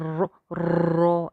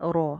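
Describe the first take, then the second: First: The r is trilled with many repeated taps. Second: The r is trilled only briefly, once. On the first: The speaker calls it wrong. "ज़रूरत से ज़्यादा तकरार के जैसे रो रो ऐसे करके रो, ये साउंड ना नहीं चाहिए" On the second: The speaker calls it right. "इसको एक अलिफ पढ़ना है"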